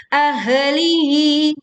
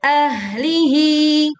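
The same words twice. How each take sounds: First: Slow "ahlihi" said as "a-he-lihi"; faulty chant with an extra vowel after first h in "ahlihi"; wrongly bounced h. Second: "ahlihi" chanted higher and louder, h running straight into l; slow "ahlihi" with no extra vowel; correct flowing h. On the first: Teacher showing the mistake, bouncing h. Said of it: "tidak memantul menjadi ahlihi". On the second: Teacher giving the correct reading, flowing h. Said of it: "Yang betul". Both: Shown as a demonstration.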